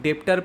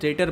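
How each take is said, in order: First: A b sound is pronounced. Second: The b sound is silent. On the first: The speaker calls it wrong. "इतनी बुरी दशा नहीं है हमारी कि हम लोग डेप्टर पढ़ें" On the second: The speaker calls it right. "डेटर बोलते हैं इसको"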